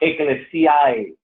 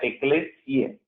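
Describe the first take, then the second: First: The ending is said as two vowels, a-e. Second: The ending is said as a single e sound. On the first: The speaker calls it wrong. "No es Ecclesiae" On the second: The speaker calls it right. "pero se pronuncia Ecclesiae"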